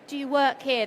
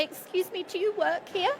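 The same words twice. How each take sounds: First: Said in the usual way. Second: Higher, tentative customer asking; timid stranger unsure who to ask; hesitant customer question. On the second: Retold or imitated. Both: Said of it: "they're not asking".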